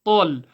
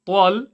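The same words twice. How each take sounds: First: "tal" heavy, with no w glide; dark clean "tal", lips still; correct still lips. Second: "tal" with moving lips, as "twol"; "tal" slipped into "twol"; wrong rounded glide. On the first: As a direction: say "tal" full-mouthed, moving only the tongue. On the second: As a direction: show the mistake "tal" with a w after the t. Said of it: "It's not". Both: Shown as a demonstration.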